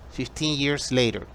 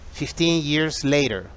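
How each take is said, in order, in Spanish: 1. Se dice con acento americano. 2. Se dice con acento americano.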